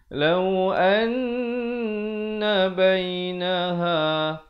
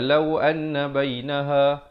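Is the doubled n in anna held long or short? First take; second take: long; short. First: The doubled n is held long with nasal hum. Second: The doubled n is short, without a held hum. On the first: The speaker calls it right. "Yang betulnya" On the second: The speaker calls it wrong. "dia tak panjangkan"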